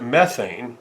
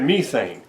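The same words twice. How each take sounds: First: It is said with the speaker's own pronunciation. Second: It is said with a British pronunciation. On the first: This is how the speaker's people say it. "we pronounce it methane" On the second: This is how the British person said it. "this is how you know uh, British people pronounce it"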